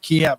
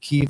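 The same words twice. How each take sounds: First: The name is said in the older 'Kiev' form. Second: The name is said in the newer 'Kyiv' form. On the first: This is the name as it used to be said. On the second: This is the name as it is said now.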